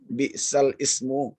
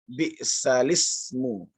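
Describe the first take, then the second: First: A glottal stop separates the two words. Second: The l links straight into the next vowel. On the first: "Ada kata bi'sal ismu" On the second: "kemudian dibuat menjadi nakal"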